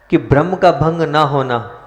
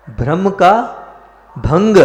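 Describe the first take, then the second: First: Said in the usual way. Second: "ब्रह्म का भंग" hammered higher and louder; emphatic repeat. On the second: Shown as a demonstration. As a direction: drive home "ब्रह्म का भंग" with force. Preacher repeats key phrase for emphasis. ("ब्रह्म का भंग" ज़ोर देकर ऊँचे स्वर में)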